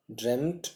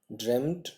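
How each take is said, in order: Both takes have the same delivery.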